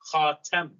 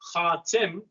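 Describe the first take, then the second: First: The vowel after the t is 'a'. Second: The vowel after the t is 'i'. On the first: He is the ring or adornment of the prophets. "it's pronounced with a fatha" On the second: He is the final prophet. "it's not pronounced Khatim"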